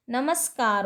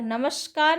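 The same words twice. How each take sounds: First: नमस्कार with a clean s, "namaskar"; correct pronunciation. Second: नमस्कार said with sh, as "namashkar"; wrong pronunciation. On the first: Teacher giving students the right form, नमस्कार as "namaskar". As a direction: keep s before k in नमस्कार. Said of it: "होता है". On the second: Teacher showing students the error, नमस्कार as "namashkar". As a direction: turn the s of नमस्कार into sh. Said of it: "नहीं होता है". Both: Shown as a demonstration.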